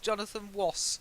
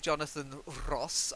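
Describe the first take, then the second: First: The R in Ross sounds like a W. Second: The R in Ross is rolled. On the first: The speaker cannot pronounce the R sound. "He can't pronounce the R" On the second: It is an old-fashioned way of speaking. "I don't roll my R's"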